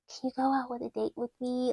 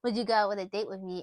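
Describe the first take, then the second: First: It is said in a really cute voice. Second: It is said in a casual, normal voice.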